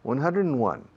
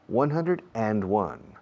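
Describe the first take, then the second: First: A quick 'n' sound links 'hundred' and 'one'. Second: Each word is said separately, with no linking sound.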